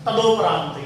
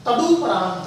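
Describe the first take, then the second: First: तदोपरांत with a long 'o' after the d; mispronunciation demo. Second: तदुपरांत with a short 'u' after the d; correct pronunciation. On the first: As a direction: say तदोपरांत as ta-do-praant. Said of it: "ये अशुद्ध है". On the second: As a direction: say तदुपरांत as ta-du-praant. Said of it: "तदुपरांत होता है". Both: Shown as a demonstration.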